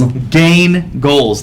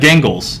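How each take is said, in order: First: The two words are said clearly and separately. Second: The two words are run together as one. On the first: The speaker calls it right. "There you go" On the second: The speaker calls it wrong. "You said it all in one word"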